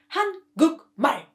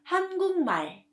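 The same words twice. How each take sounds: First: The middle syllable ends with a k sound. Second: The middle syllable ends with an ng sound. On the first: The speaker calls it wrong. "Korean people don't say 한국말. This is hard to say" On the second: The speaker calls it right. "The right pronunciation is 한국말"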